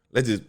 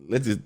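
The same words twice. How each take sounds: The two takes are said the same way.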